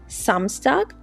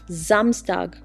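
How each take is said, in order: First: The word begins with a hissing S sound. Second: The word begins with a buzzing Z sound. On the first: The speaker calls it wrong. "it is not called Samstag" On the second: The speaker calls it right. "but Samstag with a Z sound"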